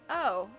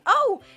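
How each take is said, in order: First: It is said in a disappointed way. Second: It is said in an excited way.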